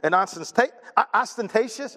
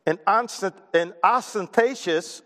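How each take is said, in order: First: Hesitant retry of "ostentatious"; second try at ostentatious. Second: Stumbling slowly through "ostentatious", breaking it off at "ostent-"; slow, halting try at "ostentatious"; mispronounced ostentatious. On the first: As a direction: grope for "ostentatious" again. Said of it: "is that saying it right?". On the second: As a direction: fumble "ostentatious" syllable by syllable. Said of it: "I said that wrong". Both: Real, not acted.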